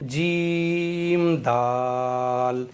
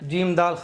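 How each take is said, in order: First: The letter names are drawn out slowly and calmly. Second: The letter names are rushed quickly together. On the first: The speaker calls it right. "थोड़ा खींच करके पढ़ना है" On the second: The speaker calls it wrong. "इस तरह से नहीं सुनाना है"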